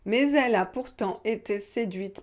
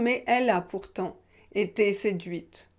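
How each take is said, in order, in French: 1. Mais se lie à elle avec un son z. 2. Mais et elle sont prononcés sans son de liaison. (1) "Donc j'ai fait la liaison" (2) "On peut dire"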